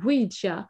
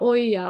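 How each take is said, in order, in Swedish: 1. Ordet uttalas som 'ouija'. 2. Ordet uttalas som 'oja'. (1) "men Ouija" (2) "en del uttalar oja och sånt där, för man vet inte hur det ska uttalas"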